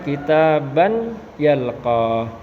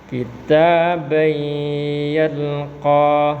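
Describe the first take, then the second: First: The n is pronounced separately before the y. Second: The n merges into a nasalized y sound. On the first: The speaker calls it wrong. "Tidak boleh dibaca kitaban yalqa" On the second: The speaker calls it right. "Maka dibaca kitabai"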